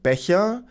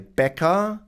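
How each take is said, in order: First: The ch is a soft German fricative. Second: The ch is replaced by a hard k. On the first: The speaker calls it right. "English speakers really struggle to pronounce the word" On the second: The speaker calls it wrong. "so they might say"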